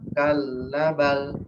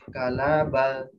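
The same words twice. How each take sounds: First: The L is doubled but the A is short. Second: The L is single and short. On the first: "benar L-nya dua, tapi A-nya satu" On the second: "L-nya satu"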